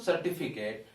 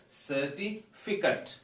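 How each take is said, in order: First: 'certificate' with a wrong 'Kate' ending; mispronunciation. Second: Slow 'certificate', split before a short 'fi-kut'; correct pronunciation. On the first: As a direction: say 'certificate' as 'ser-ti-fi-kate'. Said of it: "It is not". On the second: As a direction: say 'certificate' slowly, ending 'kut', not 'Kate'. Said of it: "It is". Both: Shown as a demonstration.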